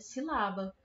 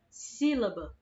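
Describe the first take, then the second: First: The stress is on the second syllable. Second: The stress is on the first syllable. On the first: The speaker calls it wrong. "se a sílaba tônica dessa palavra é o lá" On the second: The speaker calls it right. "O si é a parte que está puxando mais"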